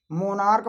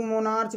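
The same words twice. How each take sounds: First: मोनार्क ending in a hard "k"; correct मोनार्क pronunciation. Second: मोनार्च ending in a "ch" sound; mispronounced मोनार्च. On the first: Teacher correcting the reading of monarch, मोनार्क ending in "k". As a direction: say मोनार्क with final "k", never "ch". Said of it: "मोनार्क पढ़ा जाता है". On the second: Teacher showing how some misread monarch, मोनार्च ending in "ch". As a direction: say मोनार्च with final "ch" as in church. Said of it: "मोनार्च गलत pronunciation है". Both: Shown as a demonstration.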